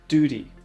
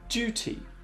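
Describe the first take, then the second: First: It is said in an American accent. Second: It is said in a British accent.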